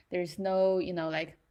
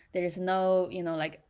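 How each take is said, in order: Both takes have the same delivery.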